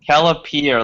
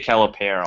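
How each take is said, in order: First: The last syllable sounds like 'peer'. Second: The last syllable does not sound like 'peer'. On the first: The speaker calls it right. "like peer pressure" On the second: The speaker calls it wrong. "that's terrible"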